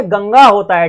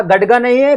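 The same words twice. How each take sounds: First: गंगा with a nasal "ng" in the middle; correct ganga. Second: गडगा with a hard "d" in the middle; wrong gadga. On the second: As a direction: say गडगा with a retroflex "d" instead of the nasal. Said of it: "कुछ लोग इसको पढ़ते हैं क्या गडगा". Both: Shown as a demonstration.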